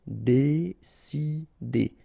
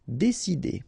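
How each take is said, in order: First: Very slow "décider", dé-ci-der; syllable by syllable. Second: Said in the usual way. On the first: Shown as a demonstration. French teacher modelling for learners, "décider" slowly syllable by syllable. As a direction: pause between each syllable of "décider".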